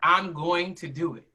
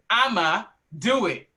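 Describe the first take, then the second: First: Each word is said out in full. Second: The words are squeezed into a short I'ma.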